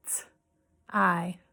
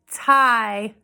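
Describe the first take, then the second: First: T-I as a bare "t", pause, then "eye"; sounded out. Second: Said in the usual way. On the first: Shown as a demonstration. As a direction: tap out T-I in two separate sounds, "t... eye". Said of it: "we're gonna tap out the sounds". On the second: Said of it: "I'm gonna say a word".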